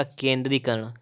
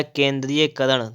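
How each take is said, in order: First: "केंद्रीकरण" as kendri-karan, no -ya-; corrected form. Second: "केंद्रीयकरण" with extra -ya- before karan; wrong form. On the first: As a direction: go straight from -dri to karan in "केंद्रीकरण". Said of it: "तो हो जाएगा". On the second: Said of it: "केंद्रीय नहीं होता है". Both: Shown as a demonstration.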